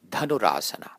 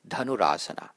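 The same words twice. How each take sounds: First: The aspirated consonant is strongly exaggerated. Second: The aspirated consonant is said lightly, as normal. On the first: "I'm exaggerating the aspirations a little bit all through this" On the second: "In the course of normal speech, it doesn't need to be quite as pronounced"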